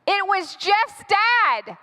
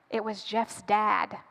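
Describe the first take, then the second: First: Higher, drawn-out dramatic alarm; alarmed reveal. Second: Low, slow and soft; hushed reveal. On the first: Storyteller repeats who is at the door, alarmed. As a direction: stretch it out high in mock horror. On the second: Storyteller reveals who is at the door, hushed. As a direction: let it drop, quiet and slow, with dread. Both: Acted.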